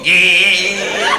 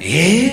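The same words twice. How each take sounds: First: It sounds amused. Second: It sounds astonished.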